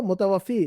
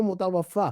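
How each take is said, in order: First: मुतवफ़ी closing on "-fee"; teaching मुतवफ़ी with final ee; contrasted ending. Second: मुतवफ़ा drawn out to "-faa"; slow मुतवफ़ा, long final aa; contrasted ending. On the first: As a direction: mark the long ee ending of मुतवफ़ी. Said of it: "जो उठाने वाला है वो". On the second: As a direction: stretch the open ending of मुतवफ़ा. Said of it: "जो उठ गया वो". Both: Shown as a demonstration.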